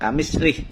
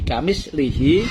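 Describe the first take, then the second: First: The word ends in lih with no final vowel. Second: The word ends in lihi with i vowels. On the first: "kasroh lamnya dan sukun haknya" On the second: "kasroh lamnya dan haknya"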